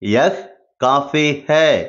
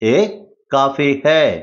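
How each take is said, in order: First: The first word is said as full 'yah'. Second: The first word is reduced to 'ay'. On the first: "யஹ் coffee ஹே அப்படின்னு சொல்லணும்" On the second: "யஹ் அப்படிங்கிறத பேசும்போது ஏ அப்படின்னு சொல்லலாம்"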